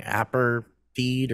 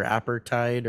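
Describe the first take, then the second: First: APARTHEID ending like FEED; unsure pronunciation. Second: APARTHEID ending like TIDE; alternative pronunciation. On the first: Host trying out how to say it, APARTHEID ending in "feed". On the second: Host offering another way to say it, APARTHEID ending in "tide". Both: Shown as a demonstration. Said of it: "everybody pronounces it differently".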